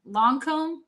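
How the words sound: The first vowel is a rounded French 'long' sound. The speaker calls it right.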